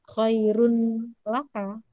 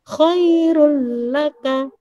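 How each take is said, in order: First: The n is pronounced before the l. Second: The n merges straight into the l. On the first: The speaker calls it wrong. "bukan khairun laka" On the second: The speaker calls it right. "langsung masuk ke hurufnya"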